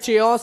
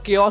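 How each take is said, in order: First: The word begins with a 'ch' sound. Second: The word begins with a 'k' sound. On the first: The speaker calls it wrong. "चेओस या फिर कुछ नहीं होता है" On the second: The speaker calls it right. "इसका मतलब केओस होता है"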